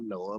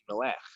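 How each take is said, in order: First: It ends in a plain vowel sound. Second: It ends in a throaty 'ch' sound. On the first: This is the English way of saying it. The speaker calls it wrong. "Noah is not Noah" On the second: This is the original Hebrew way of saying it. The speaker calls it right. "but it's Noah"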